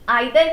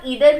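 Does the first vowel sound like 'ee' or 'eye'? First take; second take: eye; ee. First: The first vowel sounds like 'eye'. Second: The first vowel sounds like 'ee'. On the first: "आइदर भी pronounce करते हैं" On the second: "ईदर भी pronounce करते हैं"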